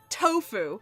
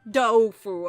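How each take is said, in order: First: The word begins with a T sound. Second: The word begins with a D sound. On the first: This is the English pronunciation. "when it's translated" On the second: This is the Chinese pronunciation. "it's like with a D"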